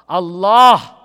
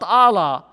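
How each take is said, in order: First: The stress is on the second syllable. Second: The stress is on the first syllable. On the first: The speaker calls it right. "accent on the second syllable" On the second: The speaker calls it wrong. "not Allah"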